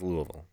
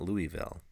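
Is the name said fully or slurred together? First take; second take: slurred; fully. First: The syllables of the name are slurred together. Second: Every syllable of the name is said clearly. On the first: The speaker calls it right. "You have to slur it as much as you can" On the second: The speaker calls it wrong. "not Louisville"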